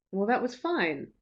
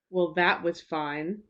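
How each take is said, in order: First: Said in the usual way. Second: Slow, grudging "Well, that was fine."; subtext. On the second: Shown as a demonstration. Teacher showing learners a grudging reading, slow. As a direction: let the subtext leak through, slowly. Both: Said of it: "the difference between somebody saying".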